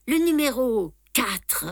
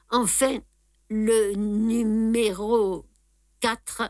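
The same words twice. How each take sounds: First: Said in the usual way. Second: Drawn-out hesitant pause before quatre; the dying man falters on le numéro quatre; hesitant, halting. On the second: Acted. Dying visitor hesitates, slow halting voice. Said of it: "Sa voix hésita".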